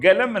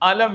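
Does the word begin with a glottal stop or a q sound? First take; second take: q sound; glottal stop. First: The word begins with a back q sound. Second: The word begins with a glottal stop. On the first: This is the standard way to say it. "ഗലം എന്നാണ് ആ സാധനം" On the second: This is the everyday dialect way to say it. "അലം എന്നാണ് പറയുക"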